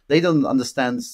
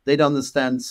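The two takes are said the same way.

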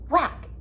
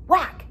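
No difference in how they are said.

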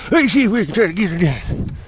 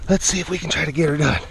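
First: Mock silly echo of oneself. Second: Said in the usual way. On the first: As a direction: repeat it in a playful funny voice. Line repeated in silly voice.

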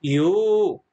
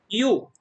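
First: "يو" with the oo held long; long vowel. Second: "يو" with a short, quick vowel. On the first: Teacher models the long sound for pupils, drawn-out "يو". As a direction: stretch the vowel of "يو". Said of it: "صوت الطويل". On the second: Teacher models the short sound for pupils, short "يو". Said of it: "صوت قصير". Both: Shown as a demonstration.

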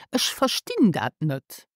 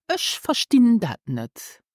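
First: Whispered first take; whispered answer. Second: Said in the usual way. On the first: Shown as a demonstration. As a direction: whisper Ich verstehe das nicht. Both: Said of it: "Do you remember how to say this".

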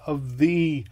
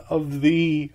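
No difference in how they are said.

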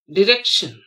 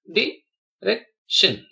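First: Said in the usual way. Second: "direction" very slowly as di, rec, tion; long gaps between the syllables of "direction". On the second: Shown as a demonstration. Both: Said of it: "split the word".

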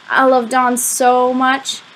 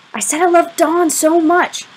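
First: Slow, higher, lovesick gush; lovesick confession. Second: High, slow, insistent declaration; insistent repeat. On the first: Boy confessing his crush to his friend, lovesick. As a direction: confess it slowly, drawing out the love. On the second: Boy repeating his confession to unresponsive friend, insistent. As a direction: repeat it pointedly, pitched well up. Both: A narrator's reading.

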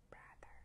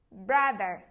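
First: Brother said barely audible, much softer; very soft echo. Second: Loud call. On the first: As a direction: shrink it to a faint echo. (đọc lại thật nhỏ) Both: Shown as a demonstration. Class echo game, loud then soft.

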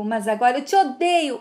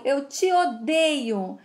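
First: Said in the usual way. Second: Slow repeat. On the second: Acted. Boy repeats his hatred.

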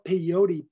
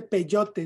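First: "peyote" as American pay-OH-dee; anglicized pronunciation. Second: Said in the usual way. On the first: Shown as a demonstration. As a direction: say "peyote" with flapped t and final ee. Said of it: "no peyote". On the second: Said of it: "Se dice peyote".

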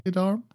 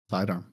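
First: Sidearm? rising sharply high at the end; sidearm? asked as an unsure question with a high lift; puzzled question. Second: Sidearm. said low and falling, softer; Sidearm. confirmed with a quiet downward close; settled statement. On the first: Guessing the weapon type, rising query. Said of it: "Thigh-, sidearm?". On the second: Confirming the weapon type, falling statement. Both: Real, not acted.

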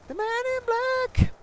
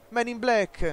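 First: Squeaky announcer. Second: Said in the usual way. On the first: Retold or imitated. Gamer parroting the announcer in a very high voice. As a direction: squeak it out like a cartoon.

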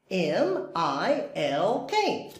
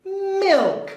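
First: M I L K spelled letter by letter, softly. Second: Milk said high and bright; high excited Milk. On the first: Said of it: "spelling out letters". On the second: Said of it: "spelled then said". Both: Shown as a demonstration.

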